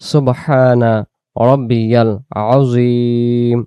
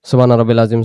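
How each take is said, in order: First: The middle word is said with its ya sound. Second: The middle word is said without its ya sound. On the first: The intended meaning comes through. The speaker calls it right. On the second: The meaning is lost. The speaker calls it wrong.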